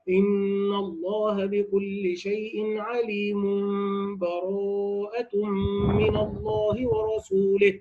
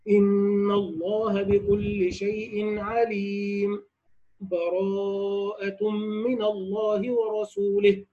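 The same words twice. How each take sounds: First: 'alim' runs straight into the next word without pausing. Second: A brief silent pause without breath follows 'alim'. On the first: "الوصل هكذا" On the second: "السكت، أي الوقف على عليم مع سكت لطيف بدون أخذ نفس"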